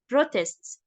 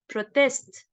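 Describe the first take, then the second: First: The stress is on the first syllable. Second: The stress is on the second syllable. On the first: "If I have it as a noun, so it's pronounced as protests" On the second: "the stress will be on the second syllable as protest"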